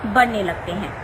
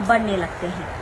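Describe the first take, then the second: No difference in how they are said.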